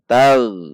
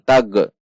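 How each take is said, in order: First: The final consonant is held without bouncing. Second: The final consonant bounces with a release. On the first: The speaker calls it right. "Namun tal. Tidak memantul" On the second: The speaker calls it wrong. "Hati-hati memantul. Tidak dibaca dengan tag"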